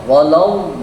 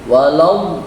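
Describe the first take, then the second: The two takes are said the same way.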